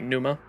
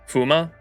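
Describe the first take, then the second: First: The word begins with an N sound. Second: The word begins with an F sound. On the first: The speaker calls it right. "Silent P" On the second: The speaker calls it wrong. "is that like an F or pronounced with an F?"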